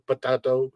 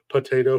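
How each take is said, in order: First: "potato" said po-TAH-to, broad ah; "potato" with an open TAH. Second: "potato" said po-TAY-to; "potato" with a TAY in the middle. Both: Shown as a demonstration.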